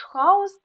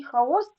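First: ХАос, stressed on the first syllable, pitched high; хаос with initial stress, as a demo; stress shows meaning. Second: ХаОс, stressed on the second syllable; хаос with final stress, as a demo; stress shows meaning. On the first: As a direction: lift and hit ХА in хаос. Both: Shown as a demonstration. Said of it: "значення слова залежить від наголосу".

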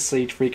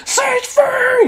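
First: Said in the usual way. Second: Loud, high echoing shout. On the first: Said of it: "She says". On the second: Retold or imitated. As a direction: yell the name across the hall. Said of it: "and I turn around and it's".

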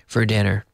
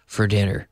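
No difference in how they are said.

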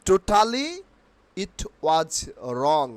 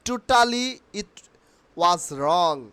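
Both takes have the same delivery.

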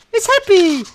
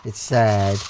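First: High, gleeful squeal; bright-eyed delight, high-pitched; playfully happy. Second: Low, glum playful voice; playfully downcast; mock sad. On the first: Pretend. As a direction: jump up high for the happy face. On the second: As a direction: drop low for a pretend sad face. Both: Watching face flip sad, happy.

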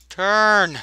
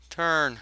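First: Louder, insistent command; shouted order. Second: Said in the usual way. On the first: Acted. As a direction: bark the order again. Repeating order to the crew.

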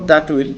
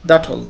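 First: Said in the usual way. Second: "that will" as "dat-ol"; contracted form. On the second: Shown as a demonstration. Teacher models the short form, "that will" as "dat-ol". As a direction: drop the w of will in "that will". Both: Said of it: "কিভাবে উচ্চারণ করব?".

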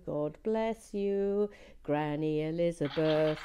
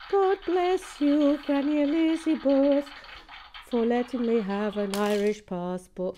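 First: Slow, lightly Irish-lilted thanks; Irish blessing. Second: Hammed-up Irish blessing. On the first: Pretend. Thanking her Irish grandmother for the passport, slow Irish lilt. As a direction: bless Granny Elizabeth slowly with an Irish lilt. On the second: Hailing her Irish grandmother for the passport, hammed-up Irish accent. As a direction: bellow the blessing like a grand old Irish toast. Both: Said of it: "I do love a good Irish accent".

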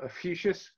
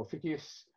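First: Ophiuchus in the first variant, pitched higher; first pronunciation of Ophiuchus. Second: Ophiuchus in the second variant, at usual pitch; alternative pronunciation of Ophiuchus. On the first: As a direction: offer "Ophiuchus" as one option, voice lifted. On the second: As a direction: give "Ophiuchus" as the other option, voice settling. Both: Shown as a demonstration. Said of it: "or Ophiuchus".

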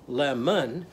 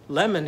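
First: "lemon" said as two parts, lem-un; split into syllables. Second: Said in the usual way. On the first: Shown as a demonstration. Teacher counts syllables for children, "lemon" broken in two. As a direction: separate both syllables of "lemon". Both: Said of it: "lemon has two syllables".

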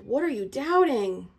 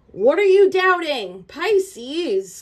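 First: Said in the usual way. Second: Loud, high and slow, pressing the question; urgent plea. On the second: Real, not acted. Reader pleading loudly with Pisces about doubting. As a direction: demand it with rising urgency.

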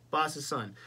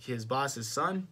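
First: "boss's son" slow with a falling, settled end; confirming. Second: "boss's son" slow with a rising, unsure end; questioning. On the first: Confirms the detail to self. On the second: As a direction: say "boss's son" like checking a fact. Unsure, checking the detail. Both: Real, not acted.

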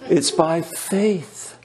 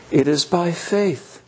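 First: It's by faith, each word slow and weighty; slow emphatic stress. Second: Said in the usual way. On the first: Shown as a demonstration. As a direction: lean slowly on faith in "It's by faith.".

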